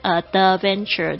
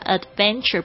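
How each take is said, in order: First: The d is heavy with a vowel added after it. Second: The d is light with no vowel after it. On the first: The speaker calls it wrong. "不要念成Adventure，就是感觉好像后面加了一个元音一样" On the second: The speaker calls it right. "这个很轻的Adventure"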